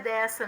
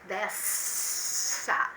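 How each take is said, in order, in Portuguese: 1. O som do s é curto e normal. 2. O som do s é prolongado e exagerado. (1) "O som é dessa mesmo, não precisa exagerar não" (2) "não é dessa"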